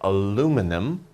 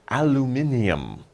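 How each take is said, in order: First: It is said in an American pronunciation. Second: It is said in a British pronunciation. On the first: The speaker is from America. "Americans will say aluminum" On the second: The speaker is from Britain. "British people will say aluminium"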